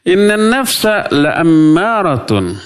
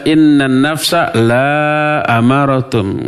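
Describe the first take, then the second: First: The vowel in 'la' is kept short. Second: The vowel in 'la' is drawn out long. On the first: The soul certainly commands evil. The speaker calls it right. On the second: The soul does not command evil. The speaker calls it wrong.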